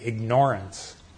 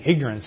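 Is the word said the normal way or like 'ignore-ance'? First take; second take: ignore-ance; normal. First: The word is said to sound like 'ignore'. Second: The word is said with its usual pronunciation. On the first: It means something is being ignored. "mispronounce the word" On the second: It means simply not knowing things. "instead of saying ignorance"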